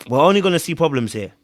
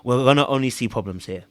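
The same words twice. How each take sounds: First: Firmer retold verdict. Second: Said in the usual way. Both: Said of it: "I looked at her and I said".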